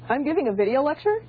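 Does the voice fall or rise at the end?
rises. The voice rises at the end. It is a question. "one's a question"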